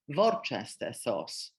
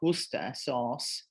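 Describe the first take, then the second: First: It is said with Polish pronunciation. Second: It is said with English pronunciation. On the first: "in Polish, we've got" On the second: "in English, we've got"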